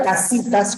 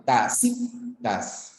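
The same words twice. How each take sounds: First: Said in the usual way. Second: "Tacitas" slow, lower and softer, syllable by syllable; split into syllables. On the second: Shown as a demonstration. Teacher working out the stressed syllable, split syllables. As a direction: sound out "Tacitas" as ta, ci, tas with pauses. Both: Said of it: "cuál sería la sílaba tónica".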